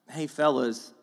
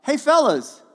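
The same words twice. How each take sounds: First: Said in the usual way. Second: High, loud call across the water; a big friendly hail from the shore; yelled greeting. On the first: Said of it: "when he yells out". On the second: Retold or imitated. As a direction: shout out to the fishermen, friendly. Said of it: "he yells out".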